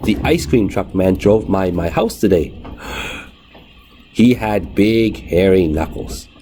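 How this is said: There is a long breath pause between sentences.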